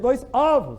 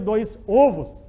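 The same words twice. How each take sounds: First: The stressed o is said open. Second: The stressed o is said closed. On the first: The speaker calls it right. "Eu já tenho que abrir o timbre da vogal" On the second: The speaker calls it wrong. "não vou dizer"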